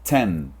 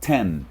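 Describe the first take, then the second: The two takes are said the same way.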